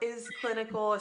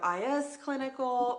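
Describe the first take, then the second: First: The first part is spoken as the word 'is'. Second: The first part is spoken as two separate letters. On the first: "it is pronounced is clinical because it is clinical" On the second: "some of us go I S clinical"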